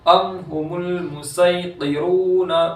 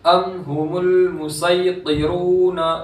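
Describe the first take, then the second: No difference in how they are said.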